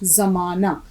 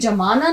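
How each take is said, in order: First: The word begins with a z sound. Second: The word begins with a j sound. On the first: The speaker calls it right. "जेड की आवाज निकालेंगे" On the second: The speaker calls it wrong. "ये जमाना नहीं होगा लफ्ज"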